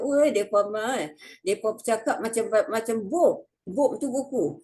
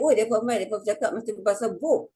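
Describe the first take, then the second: First: Mock a Kedah villager teasing, fast; Kedah dialect. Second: Kedah dialect. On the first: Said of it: "orang Kedah dia nanti kata". (loghat Kedah orang kampung mengejek) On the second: Retold or imitated. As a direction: tease in Kedah dialect, fast. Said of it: "Kalau saya balik". (loghat Kedah mengejek dengan laju)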